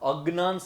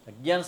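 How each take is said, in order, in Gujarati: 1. શબ્દનો ઉચ્ચાર ગુજરાતી શૈલીમાં છે. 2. શબ્દનો ઉચ્ચાર સંસ્કૃત શૈલીમાં છે. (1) "શબ્દ છે ને શુદ્ધ ગુજરાતીનો છે" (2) "શબ્દ છે ને સંસ્કૃતનો છે"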